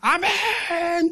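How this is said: It is said loudly and fervently.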